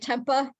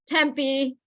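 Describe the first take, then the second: First: The word ends with an uh sound. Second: The word ends with an ee sound. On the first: The speaker calls it wrong. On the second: The speaker calls it right.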